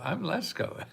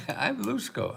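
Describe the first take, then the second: First: Said in the usual way. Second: Lusko with an oo vowel, said with a laugh; amused, say Lusko, rounding the first vowel to oo. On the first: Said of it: "Lesko is L E S K O". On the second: Shown as a demonstration. Correcting his own name to the Lusko pronunciation.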